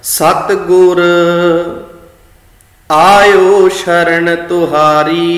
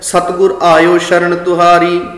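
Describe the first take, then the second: First: There is a short pause after the first word. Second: It runs on with no pause after the first word. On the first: The True Guru is addressed: I have come to your refuge. "ਜਦੋਂ ਸਤਿਗੁਰ ਤੇ ਰੁਕੇ, ਥੋੜ੍ਹਾ ਜਿਹਾ ਵਿਸ਼ਰਾਮ ਦਿੱਤਾ" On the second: The True Guru has come into your refuge. "ਜਲਦਬਾਜ਼ੀ ਵਿੱਚ ਪੜ੍ਹਾਂਗੇ"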